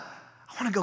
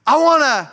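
First: Much softer restart; quiet. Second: Loud, emphatic start. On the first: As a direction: drop the voice right down. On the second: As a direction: punch out the first go at it. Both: Real, not acted. Repeats phrase, loud then quiet.

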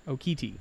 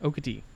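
First: Okiti with a clear "kee" in the middle; Okiti full. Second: Okati with a light, quick middle "ka"; Okati unstressed. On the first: Friend demonstrating the spelled Okiti, middle vowel full. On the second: Friend demonstrating his dialect's Okati, middle vowel reduced. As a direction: say Okati with the second syllable reduced. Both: Shown as a demonstration. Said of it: "less emphasis on that first E E".

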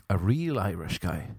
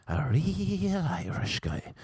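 First: Said in the usual way. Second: REAL held long and high; drawn-out REAL. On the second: Retold or imitated. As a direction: stretch out REAL in a high pitch. Repeats it, stretching the key word.

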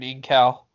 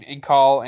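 First: "Incal" said "in-KAL", with a front short "a"; "Incal" ending like the word "pal"; "Incal" rhyming with pal. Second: "Incal" said "in-KAHL", with an open back vowel; "Incal" ending like the word "call"; "Incal" rhyming with call. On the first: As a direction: say "Incal" with the "a" of "cat" at the end. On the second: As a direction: say "Incal" with "ah" in the last syllable. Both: Shown as a demonstration. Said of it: "how do you pronounce it?".

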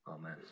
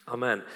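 First: Softly breathed amen, much lower; quiet amen. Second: Said in the usual way. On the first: Real, not acted. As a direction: let the amen fade almost to nothing. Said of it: "closes his prayer". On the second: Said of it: "repeats amen to close prayer".

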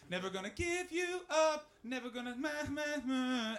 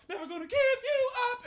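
First: Sung, high sing-song chorus cue; tentative sung lead-in for a choir; sung conducting demo. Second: Very high, loud belted singing; sung, belt it out like a choir crashing in; sung, mock gospel belting at full volume; sung, bursting-in chorus. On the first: Retold or imitated. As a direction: sing it high, filling in syllables as you lead. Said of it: "I am having to conduct". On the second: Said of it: "we kick the door open, and they just go".

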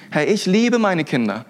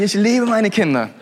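First: Said in the usual way. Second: Chuckling, honest-now take on "liebe"; laughing admission. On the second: Shown as a demonstration. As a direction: laugh while confessing you love your kids. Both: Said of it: "aber, aber ganz ehrlich".

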